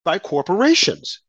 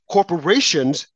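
First: Said in the usual way. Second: Corporations said slowly and heavily, falling at the end; slow emphatic repeat. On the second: Shown as a demonstration. Repeating Corporations to the audience, slow and weighty. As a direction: lean on Corporations, drawing it out.

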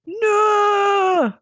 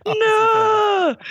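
First: Anguished scream. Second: Anguished Northern scream. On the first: Doctor over her burnt past self, screaming. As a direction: scream it in despair. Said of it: "I don't know how to scream now in Northern". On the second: Doctor cradling the charred skeleton, screaming. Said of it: "screamed the Doctor". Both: Acted.

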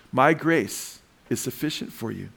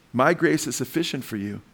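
First: Slow, "My grace" set apart by a pause; emphatic repeat. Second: Said in the usual way. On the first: Shown as a demonstration. Preacher repeats a verse to the congregation, slow and emphatic. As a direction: draw out "My grace", pause, then finish the verse.

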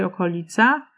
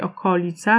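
First: Okolica as o-ko-LI-ca; modern stress on LI. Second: Okolica as o-KO-li-ca; old stress on KO. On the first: Lecturer showing the common form, stressed on LI. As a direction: put the beat on the second-last syllable of okolica. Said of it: "raczej okolica". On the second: Lecturer showing what few still say, stressed on KO. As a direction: hit the second syllable of okolica. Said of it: "mało kto już mówi okolica". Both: Shown as a demonstration.

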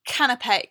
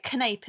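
First: Said in the usual way. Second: Canape said as kuh-NAPE; deliberate mispronunciation. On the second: Shown as a demonstration. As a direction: canape in two syllables, rhyming with tape. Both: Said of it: "instead of a canapé".

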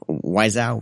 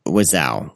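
First: Wiseau with long i, "WHY-zow"; alternative pronunciation. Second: Wiseau with short i, "WIZ-ow"; unsure pronunciation. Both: Shown as a demonstration.

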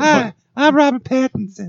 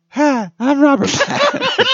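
First: Very high, breathy heartthrob voice; Robert Pattinson impression. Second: Very high, laughing heartthrob voice; Robert Pattinson impression. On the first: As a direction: play the brooding vampire star, way up high. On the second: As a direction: restart the vampire star bit, cracking up.

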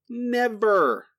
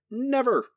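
First: NEVER held long and falling, a bit louder; louder emphatic never. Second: NEVER said high and falling; a firm NEVER dropping down; emphatic never. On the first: Repeating the refusal to his co-host, drawn-out NEVER. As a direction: drag out NEVER with finality. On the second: Podcaster flatly refusing to think about it, firm NEVER. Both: Real, not acted.

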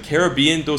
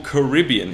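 First: Caribbean as "kair-uh-BEE-un"; first pronunciation variant. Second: Caribbean as "kuh-RIB-ee-un"; second pronunciation variant. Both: Shown as a demonstration. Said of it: "이렇게 발음 두 개 있습니다".

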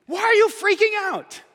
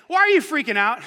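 First: High, emphatic why are you freaking out; lively Jesus question. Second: Said in the usual way. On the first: Retold or imitated. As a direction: press them with energy. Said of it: "it is what he's saying". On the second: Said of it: "you could translate this".

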